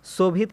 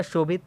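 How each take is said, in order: First: "शोभित" as "sobhit", with s; wrong s sound. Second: "शोभित" as "shobhit", with sh; correct sh sound. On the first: Teacher recaps the wrong form, "शोभित" mispronounced with s. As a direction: start "शोभित" with s, not sh. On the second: Teacher recaps the correct form, "शोभित" said with sh. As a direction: start "शोभित" with a clear sh. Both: Shown as a demonstration. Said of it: "समझा देते हैं शुद्ध रूप".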